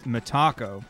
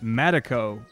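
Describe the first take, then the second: First: The middle syllable has a long, stressed A. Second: The middle syllable has a short, weak vowel. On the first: "having a long A signed, ... that would be the emphasis" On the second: "mostly Americans ... who would pronounce it Medico"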